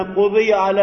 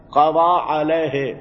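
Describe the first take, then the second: First: Quziya alayhi, marking the passive vowels; passive form quziya. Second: قضا علیہ said slowly as qaza alayhi, open a at the end; active form qaza. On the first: Teacher contrasting passive with active, quziya alayhi. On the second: Teacher contrasting active with passive, slow active qaza. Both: Shown as a demonstration. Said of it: "تو اس سے مجہول بنا،".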